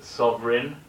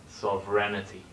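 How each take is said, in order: First: Sovereign as SOV-rin, rising tune; model pronunciation. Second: Sovereignty as SOV-ren-tee, softer falling; model pronunciation. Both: Shown as a demonstration. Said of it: "Changes the pronunciation slightly".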